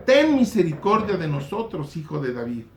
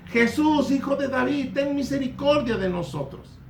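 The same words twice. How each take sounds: First: Said in the usual way. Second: High crying out to Jesus from behind; calling out. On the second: Retold or imitated. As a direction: cry out like the blind men begging. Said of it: "venían dando voces de atrás".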